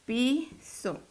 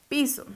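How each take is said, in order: First: PI, pause, SO; syllable by syllable. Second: Said in the usual way. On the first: Shown as a demonstration. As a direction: split Piso into two separate syllables. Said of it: "Desglosémoslo". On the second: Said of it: "Vamos a desglosarla".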